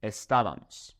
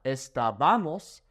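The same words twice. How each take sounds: First: Estábamos stressed early, es-TA-ba-mos; estábamos with stress on TA, not BA; correct accented A. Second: Estábamos stressed late, es-ta-BA-mos; wrong stress. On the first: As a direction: stress the TA in estábamos, then fall away. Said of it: "we put an accent over this a". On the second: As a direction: lean on the BA in estábamos. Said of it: "so not estábamos". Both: Shown as a demonstration.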